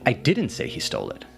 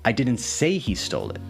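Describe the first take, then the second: First: The word 'didn't' carries the main stress. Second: The word 'say' carries the main stress. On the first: The speaker denies saying it at all. "clarifying that you did not say that" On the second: It was implied rather than said outright. "clarifying that you didn't explicitly say it, but maybe it was implied"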